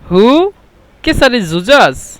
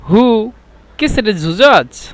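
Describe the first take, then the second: No difference in how they are said.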